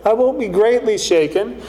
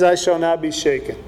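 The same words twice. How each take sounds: First: Doubtful. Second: Confident. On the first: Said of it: "he kinda wonders a little bit". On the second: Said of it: "the doubt goes away". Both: Retold or imitated.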